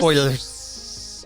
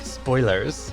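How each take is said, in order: First: The s sound is stretched and very hissy. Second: The s sound is said normally.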